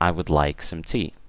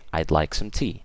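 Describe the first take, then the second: First: The word 'would' is said in full. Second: The word 'would' is contracted to 'd'. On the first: The speaker calls it wrong. "don't ever say, I would like some tea" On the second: The speaker calls it right. "It's better if you say, I'd like some tea"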